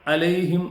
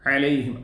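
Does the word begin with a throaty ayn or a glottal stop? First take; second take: glottal stop; ayn. First: The word begins with a plain glottal stop. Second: The word begins with a throaty ayn sound. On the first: The speaker calls it wrong. "അലൈഹിം എന്നല്ല" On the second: The speaker calls it right. "ഐനാണ്"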